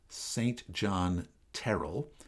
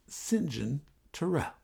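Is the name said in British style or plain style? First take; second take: plain style; British style. First: The name is said in a plain, non-British way. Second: The name is said the way the British say it. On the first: The speaker calls it wrong. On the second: The speaker calls it right. "the way that the Brits do"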